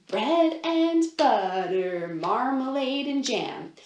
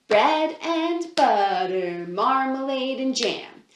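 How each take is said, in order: Both takes have the same delivery.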